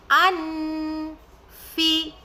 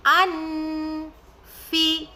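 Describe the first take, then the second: First: The n is pronounced clearly before f. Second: The n is pronounced clearly before f.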